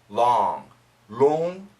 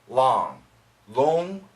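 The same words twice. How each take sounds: The two takes are said the same way.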